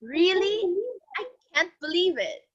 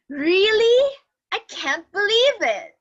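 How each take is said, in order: First: Said in the usual way. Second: Higher and louder, disbelieving "Really?"; surprised. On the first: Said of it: "Say that all together". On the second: Shown as a demonstration. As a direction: show real shock at the news. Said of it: "expressions that show surprise".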